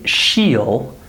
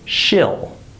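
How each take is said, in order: First: The vowel is a long ee sound. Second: The vowel is a short i sound. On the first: The speaker calls it wrong. "I wouldn't say" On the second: The speaker calls it right. "there's no E sound. There's an I sound"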